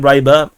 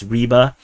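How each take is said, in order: First: The name is pronounced with English sounds. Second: The name is pronounced with Russian sounds. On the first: "I like to call them Ryber. ... I'm pronouncing it as English" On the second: "the actual pronunciation is Ryber. ... that's Russian and Ukrainian way of pronouncing it"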